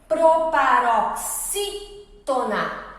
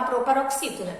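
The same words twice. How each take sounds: First: Slow proparoxítona in parts, leaning on the SI syllable; stress on antepenultimate syllable. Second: Said in the usual way. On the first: Shown as a demonstration. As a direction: stretch proparoxítona out and mark SI as the strong syllable. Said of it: "antepenúltima sílaba é a mais forte". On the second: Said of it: "a própria palavrinha proparoxítona".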